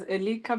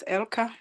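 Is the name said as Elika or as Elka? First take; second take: Elika; Elka. First: The name is said as Elika. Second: The name is said as Elka. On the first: This follows the written form. "you can pronounce as Elika because that's how it's written" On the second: This is how the owner says it. "but I pronounce it as Elka"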